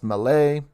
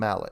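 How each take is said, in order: First: The name is said in a non-English way. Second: The name is said in the English way. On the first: This is probably the original pronunciation. "it's probably pronounced Mallet" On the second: This is the anglicized pronunciation. "I'm going with the English pronunciation"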